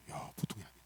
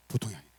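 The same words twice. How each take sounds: First: Quietly impressed, almost a whisper, 보통이 said softly; hushed wonder. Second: Said in the usual way. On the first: Shown as a demonstration. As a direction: breathe 보통이 아니네 in awe. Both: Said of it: "따라서".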